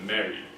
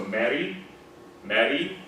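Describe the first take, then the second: First: Mary ending on a darker barred I. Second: Mary ending on a bright E. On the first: Teacher showing the barred I version of Mary. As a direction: say Mary with a dull central vowel. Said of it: "Hear how that's barred I". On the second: Teacher showing the correct British Mary. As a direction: say Mary with a clear front E. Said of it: "is just E". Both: Shown as a demonstration.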